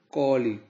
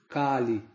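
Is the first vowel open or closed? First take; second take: closed; open. First: The first vowel is a closed, rounded a. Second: The first vowel is an open a. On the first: It names the demon ruling the present age. The speaker calls it right. "mas sim com o A fechado" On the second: It names the goddess who kills demons. The speaker calls it wrong. "a pronúncia não é com o A aberto"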